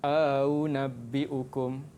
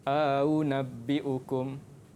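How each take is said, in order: Both takes have the same delivery.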